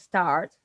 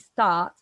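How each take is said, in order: First: An R sound follows the vowel. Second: No R sound; the vowel is lengthened. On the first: "instead of saying start" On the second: "if we lose R, ... we say start, ... then we have to lengthen"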